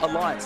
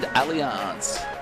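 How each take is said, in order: First: The name is said the 'Alliance' way. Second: The name is said the 'Allianz' way. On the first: This is how everyone else says it. "Or Alliance, depending on how you like to pronounce it" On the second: This is how Northern Beaches locals say it. "depending on how you like to pronounce it"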